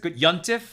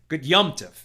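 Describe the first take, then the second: First: The word is said with an n sound. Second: The word is said with an m sound. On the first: "we often pronounce it good Yontif" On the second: "really what we're saying is good Yomtiv"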